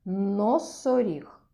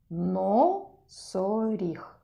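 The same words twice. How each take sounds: First: Slow, drawn-out Носоріг; teacher drawing out the word for children; slow model word. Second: Носоріг stretched syllable by syllable, very slow; teacher stretching the word even slower. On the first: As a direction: say Носоріг slowly, every sound clear. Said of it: "Хто в нас там?". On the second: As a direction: draw Носоріг out as no-со-ріг so the first syllable is heard. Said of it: "На який склад починається це слово?". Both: Shown as a demonstration.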